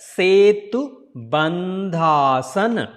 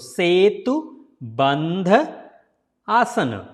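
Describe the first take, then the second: First: Bandha and asana are joined into one word. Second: Bandha and asana are said as separate words.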